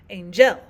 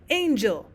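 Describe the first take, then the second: First: The stress is on the second syllable. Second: The stress is on the first syllable. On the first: The speaker calls it wrong. "not angel" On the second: The speaker calls it right. "we would stress the first of the two syllables. We would say angel"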